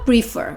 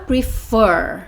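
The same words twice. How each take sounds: First: The stress is on the first syllable. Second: The stress is on the second syllable. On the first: The speaker calls it wrong. "Você não fala prefer" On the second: The speaker calls it right. "você fala prefer"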